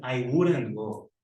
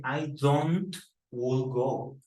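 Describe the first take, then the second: First: Slow, clear correct form; careful slow model. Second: Slowly spelled-out error; drawn-out incorrect form; slow wrong example. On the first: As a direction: model the right sentence slowly. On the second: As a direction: say the mistake slowly. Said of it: "No dice". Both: Shown as a demonstration.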